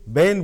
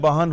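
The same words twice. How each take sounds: First: It is said in a Delhi accent. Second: It is said in an Allahabad accent. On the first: "Delhi में बहन को बहन बोला जाता है। ... ए का साउंड इफेक्ट होता है" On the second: "इलाहाबाद आते हैं, बहन हो जाता है"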